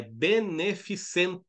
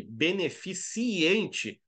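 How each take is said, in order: First: BENEFICENTE slowly, syllable by syllable, CEN without an I; correct, no I. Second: BENEFICIENTE drawn out slowly, dwelling on the extra I; wrong extra I. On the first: Teacher correcting students, "beneficente" slow and syllabified. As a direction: spell out "beneficente" by ear, be-ne-fi-cen-te. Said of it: "Tira aquele I maroto ali do meio". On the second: Teacher showing students the wrong form, "beneficiente" slowly stretched at the I. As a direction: say "beneficiente" very slowly, exposing the IEN. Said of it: "Então, não se engane". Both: Shown as a demonstration.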